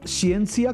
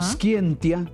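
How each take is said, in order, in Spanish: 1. Se pronuncia con la pronunciación del latín eclesiástico. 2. Se pronuncia con la pronunciación reconstruida del latín clásico. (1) "como lo pronuncia la iglesia" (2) "como lo pronuncia el- el- la reconstrucción del latín clásico"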